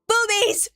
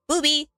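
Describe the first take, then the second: First: The word is said loudest. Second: The word is said somewhat louder.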